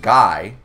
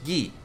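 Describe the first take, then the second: First: The name is said the English way, rhyming with eye. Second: The name is said the French way, rhyming with key. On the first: The speaker calls it wrong. "their name isn't Guy, like Guy Fieri" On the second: The speaker calls it right. "it's Guy, but it's spelt the same"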